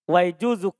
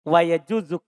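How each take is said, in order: Both takes have the same delivery.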